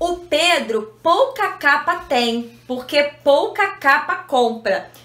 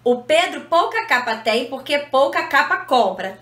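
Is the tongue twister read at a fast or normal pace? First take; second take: normal; fast. First: It is read at a normal, careful pace. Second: It is read quickly, with words running together. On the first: "O texto um é assim, ó" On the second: "Se a gente tentar ler esse texto mais rápido, a gente acaba embolando tudo"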